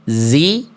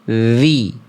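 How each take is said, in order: First: The consonant is a buzzing z sound. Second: The consonant is a voiced th sound. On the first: The speaker calls it wrong. "Bukan zi" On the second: The speaker calls it right. "tapi zi"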